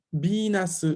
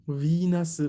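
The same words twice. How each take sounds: First: Venus said bi-nasu with a hard B; hard bi sound. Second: Venus said vi-nasu with a soft V; soft vi sound. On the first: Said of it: "aquí el sonido es duro". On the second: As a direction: Venus with a gentle vi. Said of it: "muy suave". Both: Shown as a demonstration.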